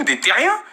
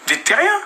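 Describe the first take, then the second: First: Said in the usual way. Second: Much higher, jeering; scornful high-pitched jab; mocking repeat. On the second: Real, not acted. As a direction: sneer the word back up high. Mocking rivals as hiders.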